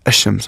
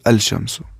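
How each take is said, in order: First: The l merges into a doubled sh sound. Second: The l is clearly pronounced before the sh. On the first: The speaker calls it right. "We will say ash-shams" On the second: The speaker calls it wrong. "We will not say al shamsu"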